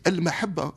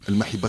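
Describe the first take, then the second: First: The vowel after the h is a. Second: The vowel after the h is i. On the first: The speaker calls it right. "Alors c'est Al-Mahabba, c'est pas compliqué" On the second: The speaker calls it wrong. "une diction qui m'insupporte"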